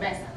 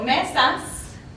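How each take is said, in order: First: The final s is not pronounced. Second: The final s is fully pronounced.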